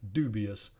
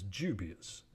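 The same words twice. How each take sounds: First: The first consonant is a plain d sound. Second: The first consonant is palatalized toward j.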